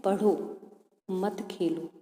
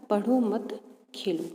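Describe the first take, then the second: First: "पढ़ो" set apart, then "मत खेलो" together; pause after पढ़ो. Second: "पढ़ो मत" grouped, then "खेलो" set apart; pause after मत. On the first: Teacher reads the first example sentence to pupils, pause after पढ़ो. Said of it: "विराम चिन्ह लग रहा है". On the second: Teacher reads the second example sentence to pupils, pause after मत. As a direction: join मत to पढ़ो, break before Khelo. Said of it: "उनसे दोनों का अर्थ". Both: Shown as a demonstration.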